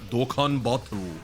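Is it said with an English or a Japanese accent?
English. It is said with a plain English accent. "It's not Dokkan Battle"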